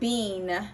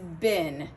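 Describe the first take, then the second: First: The word has a long 'ee' vowel. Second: The word has a short 'i' vowel. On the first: The speaker calls it wrong. "It surely looks like we would call it, we would pronounce it bean" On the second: The speaker calls it right. "but it's bin, which sounds exactly like the spelling B I N"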